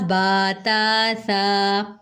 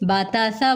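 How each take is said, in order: First: The vowels are drawn out long. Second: The vowels are cut short. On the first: The speaker calls it right. "ये हम खींच के पढ़े हैं" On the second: The speaker calls it wrong. "तो वो गलत हो जाएगा"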